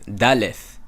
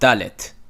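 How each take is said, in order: First: The word ends in a fricative sound. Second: The word ends in a stop sound. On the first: The speaker calls it right. "Daleth has a fricative" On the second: The speaker calls it wrong. "and not dalet"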